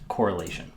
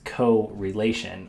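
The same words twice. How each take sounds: First: The word is said smoothly as one word. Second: The word is split into co and relation. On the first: "But it's pronounced correlation" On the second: "it literally says correlation"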